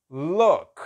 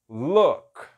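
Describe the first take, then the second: No difference in how they are said.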